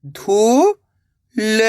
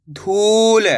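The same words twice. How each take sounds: First: धू, long pause, ल; धूल split slowly, rising first syllable. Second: धूल joined, long ऊ; blended word. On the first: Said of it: "एक अक्षर का उच्चारण करना है". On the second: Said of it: "मिलके क्या बनेगा". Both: Shown as a demonstration.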